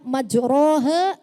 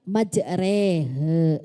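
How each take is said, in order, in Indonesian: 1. Vokal setelah r adalah a terbuka. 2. Vokal setelah r condong ke e. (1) "di situ bacaannya majrohe" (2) "kita baca majrehe ... itu imalah ... suruh dimiringkan"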